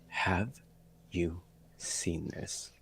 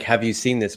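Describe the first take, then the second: First: It is said in a pointed, upset tone. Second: It is said in a plain, neutral tone. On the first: The feeling the reader sensed behind the message. "But I read it as" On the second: The literal words of the message. "the the word might have been like"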